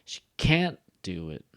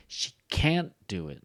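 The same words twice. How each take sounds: First: Can't louder with a falling tune; strong can't. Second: CAN'T stressed and held; strong can't. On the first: Teacher modeling stressed negative can't. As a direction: hit can't and let it fall. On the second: Teacher showing stress on the negative. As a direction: lean on the word can't. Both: Shown as a demonstration. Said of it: "Can't should be, like, strong".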